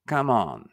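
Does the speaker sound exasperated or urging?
exasperated. It sounds exasperated, like mild protest. The speaker is protesting or can't believe it. "おいおい。"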